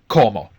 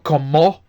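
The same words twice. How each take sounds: First: The stress is on the first syllable. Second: The stress is on the last syllable. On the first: The speaker calls it right. "the stress is always on the second last syllable" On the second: The speaker calls it wrong. "so it's not como"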